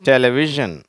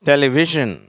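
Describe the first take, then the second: Both takes have the same delivery.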